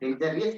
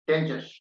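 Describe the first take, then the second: First: It has an extra 'ee' sound, four syllables. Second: It has no extra sound, three syllables. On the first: The speaker calls it wrong. "Wrongly pronunciation डेंजरियस बोली" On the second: The speaker calls it right. "Original pronunciation"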